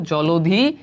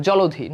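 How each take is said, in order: First: জলধি said as jo-lo-dhi, an o sound after the l, rising at the end; teacher modelling জলধি as jo-lo-dhi; careful pronunciation. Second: জলধি said as jo-lo-dhi, o after the l, aspirated dh, falling at the end; teacher settling on জলধি as jo-lo-dho, falling; careful pronunciation. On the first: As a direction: spell out জলধি slowly with o after l, ending on a rise. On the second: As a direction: say জলধি with an o after l and a breathy dh, closing on a fall. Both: Shown as a demonstration. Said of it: "লয়ের সাথে একটা ওকার আসে উচ্চারণ".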